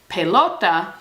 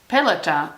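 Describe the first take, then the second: First: The stress falls on the expected syllable. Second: The stress falls on a different syllable. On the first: The speaker calls it right. "instead of pelota" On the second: The speaker calls it wrong. "with a stress on a different syllable"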